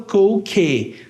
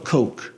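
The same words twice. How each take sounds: First: An extra vowel sound follows the final K. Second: The word ends right on the K sound. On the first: The speaker calls it wrong. "A gente não fala coke" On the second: The speaker calls it right. "fala coke"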